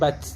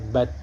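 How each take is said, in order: First: The t flows on without being held. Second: The t is cut off and briefly held. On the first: The speaker calls it wrong. "bukan bat" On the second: The speaker calls it right. "ditertahan dulu"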